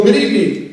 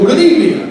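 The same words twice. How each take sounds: First: Said in the usual way. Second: Higher, louder good evening with the room dipping; emcee greeting. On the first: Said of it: "here's how it works". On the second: Shown as a demonstration. MC greeting wedding guests, projected and higher. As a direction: call out "Good evening" to hush the crowd. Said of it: "did you see that? Did you feel?".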